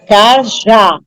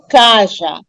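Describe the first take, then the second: First: The stress is on the last syllable. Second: The stress is on the first syllable. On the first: The speaker calls it right. "a última sílaba é tônica, é mais forte" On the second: The speaker calls it wrong. "E não caja"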